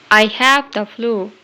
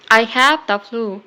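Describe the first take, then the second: No difference in how they are said.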